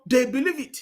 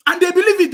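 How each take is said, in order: First: Said in the usual way. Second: Loud, high punch on believe; And they believe it, with believe hit hard, high and loud; emphatic insistence. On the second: Real, not acted. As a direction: hammer the word believe home, indignant. Insists people believe the rumour.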